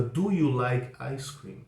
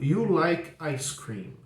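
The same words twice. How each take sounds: First: "Do" put in front and stressed, said slowly; slow question. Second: "You like ice cream?" said slowly as a question. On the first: Teacher modelling the question with the auxiliary, slow. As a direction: lean on "Do" and go slowly. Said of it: "faço disso uma pergunta". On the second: Teacher showing students the question without the auxiliary, slow. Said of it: "mais fácil se eu digo". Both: Shown as a demonstration.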